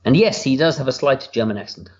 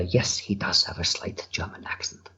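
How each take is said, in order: First: Said in the usual way. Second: Quiet, half-voiced slight German accent; hushed German-accented character voice. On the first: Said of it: "Or I should say". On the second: Shown as a demonstration. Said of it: "a more interesting voice than my own".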